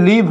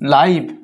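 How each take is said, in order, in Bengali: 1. স্বরধ্বনিটি একটি ছোট 'ih' ধ্বনি। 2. স্বরধ্বনিটি একটি লম্বা 'eye' ধ্বনি। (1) "একটা উচ্চারণ হচ্ছে লিভ হয়" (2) "আর একটা উচ্চারণ হচ্ছে লাইভ হয়"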